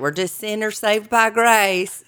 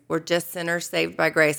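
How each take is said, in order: First: It is said in an exaggerated country accent. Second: It is said in a neutral, unmarked accent.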